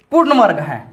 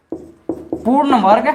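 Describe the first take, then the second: First: Said in the usual way. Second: पूर्ण वर्ग drawn out very slowly, rising at the end; slow dictation. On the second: Real, not acted. Teacher dictating a maths question to students, पूर्ण वर्ग slowly stretched. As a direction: stretch पूर्ण वर्ग out for note-takers, ending on a rise.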